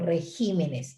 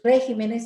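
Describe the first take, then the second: First: The stress is on the second syllable, gi. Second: The stress is on the first syllable, re. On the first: The speaker calls it right. "sino regímenes" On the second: The speaker calls it wrong. "no es regímenes"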